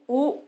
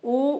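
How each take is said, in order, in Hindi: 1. स्वर को दो मात्रा तक खींचा जाता है। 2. स्वर को एक छोटी मात्रा तक खींचा जाता है। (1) "द्विमात्रा" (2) "एक मात्रा"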